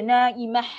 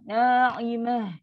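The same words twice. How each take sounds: First: The final h is a harsh, throaty friction. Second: The final h is a soft, breathy exhale. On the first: The speaker calls it wrong. "Jangan macam na'imah. Itu ha pedas" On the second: The speaker calls it right. "Bunyi ha yang angin yang penat tu"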